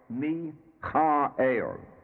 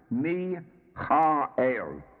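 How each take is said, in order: First: The name is pronounced the Hebrew way. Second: The name is pronounced the Hebrew way.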